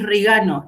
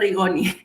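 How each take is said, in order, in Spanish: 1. El nombre termina con los sonidos 'ano'. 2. El nombre termina con los sonidos 'oni'. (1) "es Rigano el apellido" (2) "no Rigoni"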